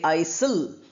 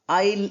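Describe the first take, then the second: First: The s sound is pronounced. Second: The s sound is silent. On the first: The speaker calls it wrong. "We don't say aisle" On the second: The speaker calls it right. "S is silent"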